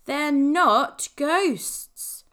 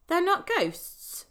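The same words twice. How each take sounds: First: "not" stressed hard, slow and louder; firm, slow "They're NOT ghosts" with a punched "not"; insistent. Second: "not" stressed again, slower and higher; patient, weary "They're NOT ghosts"; repeated insistence. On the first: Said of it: "insisted Ben". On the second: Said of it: "repeated Ben". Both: A narrator's reading.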